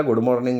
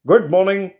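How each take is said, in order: First: Said in the usual way. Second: Put-on a bright, higher, louder "good morning" from the young man; cheerful good morning. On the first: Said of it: "सरळ चेहऱ्याने". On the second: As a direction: greet them too cheerfully, as if nothing happened. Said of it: "Santosh आम्हाला बघून म्हणाला". (उंच, मोठ्या आवाजात उत्साही "good morning")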